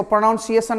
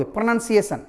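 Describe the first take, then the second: First: प्रोनाउंसिएशन said as pro-NOUN-see-ay-shun, the wrong Indian way; mock the common mistake on प्रोनाउंसिएशन with a full "naun"; wrong pronunciation demo. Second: प्रोनाउंसिएशन said as pruh-nun-see-ay-shun, softer; correct pronunciation demo. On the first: Teacher shows students the mistake to avoid, pro-naun-see-ay-shun. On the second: Teacher gives class the right form, softly pruh-nun-see-ay-shun. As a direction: model प्रोनाउंसिएशन with a reduced "nun" syllable. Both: Shown as a demonstration. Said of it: "इसको प्रोनाउंसिएशन नहीं बोलोगे".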